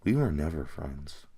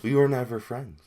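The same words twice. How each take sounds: First: Jax. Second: Said in the usual way. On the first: Acted. Jax cutting off his friend, low dismissive delivery. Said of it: "But then he does this".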